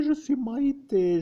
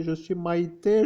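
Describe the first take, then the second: First: «je» appuyé, chute à la fin; stress on je. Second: «Maïté» appuyé avec montée finale; stress on Maïté. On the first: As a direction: appuyez sur «je» dans «je suis Maïté». (accent d'insistance sur «je») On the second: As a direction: faites monter et appuyez «Maïté». (insistance sur «Maïté», intonation montante) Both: Pretend. Repeats her name, stress moved.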